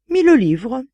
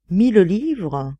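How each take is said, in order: First: Said in the usual way. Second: Slow, musing question; dreamy questioning. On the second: A narrator's reading. Artist pondering the price, dreamy. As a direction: draw it out as if lost in thought. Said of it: "demanda l'artiste d'un air rêveur".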